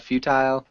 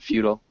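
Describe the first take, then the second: First: The word is said with strong emphasis. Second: The word is said plainly, without extra emphasis.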